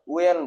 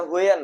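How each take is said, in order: First: ওয়েন said as "wen", the h kept silent; correct pronunciation. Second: হুয়েন said with an h at the start, as "hwen"; wrong pronunciation. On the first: Teacher showing students the right way: ওয়েন with a silent h. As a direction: say ওয়েন starting straight on the w. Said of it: "এইচ silent থাকবে". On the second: Teacher showing students the mistake: হুয়েন with a spoken h. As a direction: voice the h in হুয়েন to show the error. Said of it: "এটা হুয়েন নয়". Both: Shown as a demonstration.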